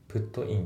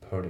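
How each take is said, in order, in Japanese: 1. T は、はっきりした独立した T の音です。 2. T は前後とつながって、L のように聞こえます。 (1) "Put in って言ってないですね" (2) "リンキングが起きてて、ちょっとT のところがL っぽくなってますね"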